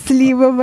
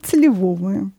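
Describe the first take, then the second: First: СЛИ́вовое, stress on СЛИ; stress on first syllable. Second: Сливо́вое, stress moved onto ВО; stress on second syllable. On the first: Shown as a demonstration. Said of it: "это режет слух". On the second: Retold or imitated. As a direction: say сливовое as сли-ВО-вое. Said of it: "что нужно говорить".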